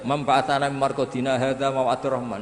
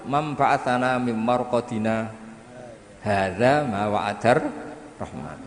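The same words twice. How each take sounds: First: It is read straight through without a pause. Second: There is a brief pause after marqadina.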